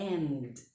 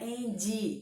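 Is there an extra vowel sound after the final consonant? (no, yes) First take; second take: no; yes. First: It ends cleanly on the D sound. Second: An extra ee vowel follows the final D. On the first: The speaker calls it right. "O som é de D, não é de som de I" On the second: The speaker calls it wrong. "não é end"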